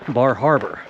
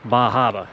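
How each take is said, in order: First: The R sounds are clearly pronounced. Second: The R sounds are dropped after vowels. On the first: The speaker calls it right. "the town that's close to here is called Bar Harbor" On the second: The speaker calls it wrong. "the locals pronounce it Bah Harbor"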